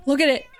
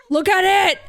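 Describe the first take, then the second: First: Said in the usual way. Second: Excited. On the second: Real, not acted. Repeats it to the kitten.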